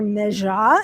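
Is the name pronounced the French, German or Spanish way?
French. The name is pronounced the French way. "Meja in French"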